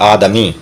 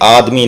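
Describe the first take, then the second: First: The d is followed by a short vowel. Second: The d is closed with no vowel after it. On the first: The speaker calls it right. "आदम से बना है आदमी" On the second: The speaker calls it wrong. "दाल को साकिन नहीं, आदमी नहीं"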